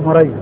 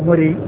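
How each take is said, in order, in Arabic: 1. يُقال الاسم بصيغة التصغير. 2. يُقال الاسم بصيغة النسب. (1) "إذا كان بالتصغير فهو مري" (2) "وهذا النسب يعني مري"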